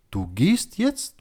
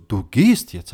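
First: Retold challenge, "jetzt" rising high and slow; angepisste Nachfrage. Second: Retold firm order, "gehst" falling; angepisster Befehl. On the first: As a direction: stretch "Du gehst jetzt?" into a pointed question. (gedehnte Nachfrage, bei „jetzt“ stark nach oben gezogen) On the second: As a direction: say "Du gehst jetzt" as a settled command. (bestimmter, nacherzählter Befehl mit fallendem Ton) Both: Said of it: "es hat mich angepisst".

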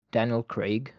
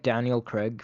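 First: Said in the usual way. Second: "Craig" said with short e, like "Creg"; slip in pronunciation. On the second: Real, not acted. Comparing an actor's accent, "Craig" slips out as "Creg". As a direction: say "Craig" to rhyme with "leg".

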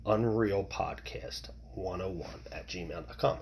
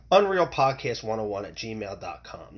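First: A confiding whispered repeat of the email. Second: Said in the usual way. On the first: Shown as a demonstration. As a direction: whisper the address again, softer. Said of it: "repeats email address, now whispered". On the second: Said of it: "reads out his email address".

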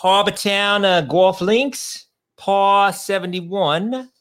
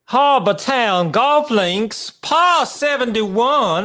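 First: Mock Boston accent on Harbortown Golf Links, par seventy-one; hammed-up Boston reading of the course name. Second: Harbortown Golf Links said high and slow in a Southern drawl; mock South Carolina drawl on par seventy-one; South Carolina accent. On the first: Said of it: "uh, accent?". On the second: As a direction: redo the course name in a hammed-up South Carolina accent. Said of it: "Do you have a South Carolina accent for me?".

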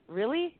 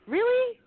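First: Said in the usual way. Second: Really, pitched much higher and louder in disbelief; a squeaky, incredulous really; exasperated really. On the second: Real, not acted. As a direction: throw up your hands at the stash. Building up about the stolen items.

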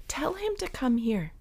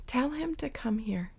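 First: Said in the usual way. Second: Soft whisper; whispered call. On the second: Acted. Jesus inviting the blind man, whispered. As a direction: breathe the invitation.

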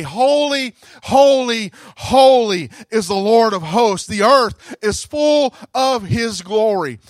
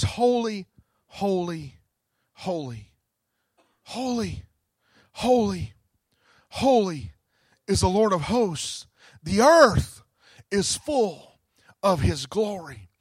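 First: Louder, ringing holy holy; preacher lifting the angels' cry; rising proclamation. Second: Reverent hush. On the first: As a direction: proclaim it to the whole church. Repeating the seraphim's cry loudly. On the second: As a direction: breathe each holy in awe. Quoting the seraphim's song. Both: Acted.

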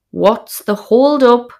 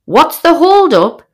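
First: Slow, raised call across the campsite; hollered question. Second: Indignant retort. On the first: Wife hollering at her husband across the pitch, raised voice. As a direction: shout it over the wind. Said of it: "I holler at him". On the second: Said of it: "He says". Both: Retold or imitated.

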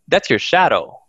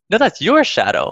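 First: Said in the usual way. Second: YOUR pushed up high in pitch; stress on YOUR. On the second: Retold or imitated. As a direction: hit the word YOUR high, as a retort. Retort handing the shadow back.

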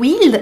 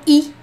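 First: "il" with the final L held; L pronunciado. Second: "i" as a bare vowel, il without L; L omitido. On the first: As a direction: finish "il" on a clear L. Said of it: "Eles falam o il". ("il" com L final) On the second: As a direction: drop the L, just "i". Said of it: "eles falam i". (só "i", sem L) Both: Shown as a demonstration.

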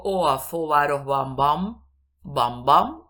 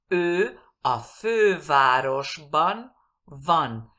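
First: "Ó a fővárosban van" with plain Spanish o and v said as b; hammed-up Spanish-speaker "fővárosban van", van turned into bam; exaggerated wrong pronunciation. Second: Very slow, loud "Ő a fővárosban van", word by word; careful Hungarian pronunciation. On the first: Teacher showing learners what is not understood, exaggerated mispronunciation. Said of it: "Estoy exagerando". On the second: Teacher repeating the model sentence for learners, slow and exact. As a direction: stretch "Ő a fővárosban van", rounded ő, clear v. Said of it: "diferenciar la V de la B".

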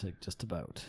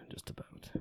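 First: Said in the usual way. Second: Soft unvoiced whisper of the tag line; whispered aside. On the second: Real, not acted. Host whispering a joke about Chad's beers, hushed. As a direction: breathe it out as a sly afterthought.

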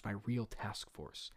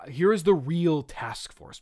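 First: Much lower, softer, slower; hushed, drawn-out villain afterthought; low repeat. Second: Slow announcement, stress on "real"; mock-proud villain introduction; grand reveal. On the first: Acted. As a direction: sink into a quiet, slow aside. Same words repeated low, as aside. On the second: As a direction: present the "real task force" slowly. Fisk's grand reveal, first take.

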